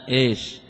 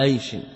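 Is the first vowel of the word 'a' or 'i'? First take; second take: i; a. First: The word begins with an 'i' vowel. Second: The word begins with an 'a' vowel. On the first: The speaker calls it wrong. "بالكسر" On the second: The speaker calls it right. "بفتح الهمزة لا بكسرها ... على وزن عيش"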